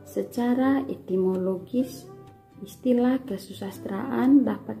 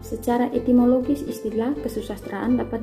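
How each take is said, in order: First: It is read at a slow pace. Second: It is read at a fast pace. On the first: "dengan lambat" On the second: "Misalkan baca dengan tempo cepat"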